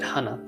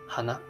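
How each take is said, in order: First: It is said with a Kansai pitch pattern. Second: It is said with a standard Japanese pitch pattern. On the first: "this way of pronouncing that's actually Kansai um, region way" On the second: "Standard Japanese would be hana"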